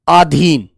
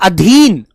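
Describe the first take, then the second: First: The first vowel is a long aa sound. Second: The first vowel is a short a sound. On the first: The speaker calls it wrong. "आ की आवाज उसमें गलत होती है" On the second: The speaker calls it right. "शब्द होता है अधीन"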